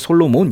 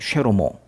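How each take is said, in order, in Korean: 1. 이 이름은 Solomon이라고 해요. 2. 이 이름은 Shelomo라고 해요. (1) "우리 이제 솔로몬 이렇게 부르고 있긴 한데" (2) "원래 발음은 쉐로모예요"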